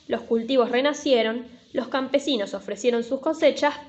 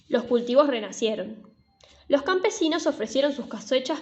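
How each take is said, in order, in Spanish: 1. Hay una pausa corta después de renacieron. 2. Hay una pausa larga después de renacieron. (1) "Si una pausa chiquita no sirve" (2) "hay que poner una pausa más grande"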